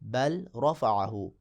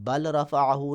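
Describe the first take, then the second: First: The L merges into the following R sound. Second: The L is pronounced clearly before the R. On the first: The speaker calls it right. "इस तरह" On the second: The speaker calls it wrong. "अब इसको बल रफ़अहू नहीं पढ़ेंगे"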